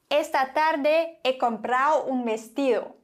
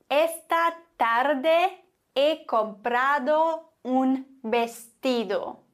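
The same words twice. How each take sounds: First: The d between vowels is swallowed, softer, faster. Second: Every d between vowels is clearly pronounced.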